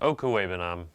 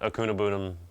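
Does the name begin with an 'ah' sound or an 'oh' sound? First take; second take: oh; ah. First: The name begins with an 'oh' sound. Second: The name begins with an 'ah' sound. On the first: The speaker calls it right. "That's how you pronounce it" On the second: The speaker calls it wrong.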